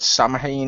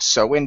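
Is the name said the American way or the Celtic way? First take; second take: American; Celtic. First: The name is said the American way. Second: The name is said the Celtic way. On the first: "however you pronounce it in the American pronunciation" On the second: "I always pronounce it Samhain because it's the same name as the Celtic festival"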